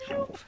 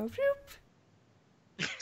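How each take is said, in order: First: Said in the usual way. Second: High squeaky zombie "Whoop"; little zombie voice. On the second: Acted. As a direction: pitch way up for a tiny zombie. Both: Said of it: "the little zombies go".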